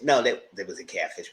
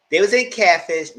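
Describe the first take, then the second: First: Said in the usual way. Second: Louder, higher first try; slip. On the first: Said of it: "What the hell I'm saying?". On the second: Real, not acted.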